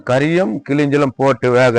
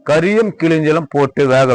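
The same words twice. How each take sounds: The two takes are said the same way.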